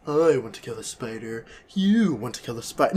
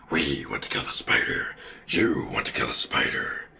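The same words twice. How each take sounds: First: Soft, human villain read; Eddie Brock voice. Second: Very low, hushed monster rasp; symbiote voice. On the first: Retold or imitated. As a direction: say it limply, in an everyday human voice. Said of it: "That's much better than". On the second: Acted. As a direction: whisper it deep like a creature in control. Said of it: "It would say "we".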